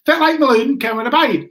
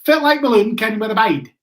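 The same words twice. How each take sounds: First: Mock Aberdeen accent repeated, a bit louder and higher; repeating the Aberdeen accent. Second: A light mock Aberdeen accent from a local bloke; imitating an Aberdeen accent. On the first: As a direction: say the local's line again in a broad Aberdeen accent, pushing it. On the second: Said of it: "this bloke came up to me and he goes".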